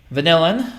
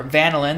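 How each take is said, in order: First: Vanillin said va-NILL-in; stress on second syllable. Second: Vanillin said VAN-uh-lin; stress on first syllable. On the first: Chemistry teacher giving one pronunciation, Vanillin as va-NILL-in. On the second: Chemistry teacher giving the other pronunciation, vanillin as VAN-uh-lin. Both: Shown as a demonstration. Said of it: "depending on how you pronounce it".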